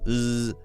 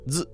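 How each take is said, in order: First: The z is a smooth, continuous buzz. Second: The z is sharp, with airflow cut off. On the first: The speaker calls it right. "the front of your tongue is the part that's vibrating right behind your teeth" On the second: The speaker calls it wrong. "if this is too sharp and it sounds like"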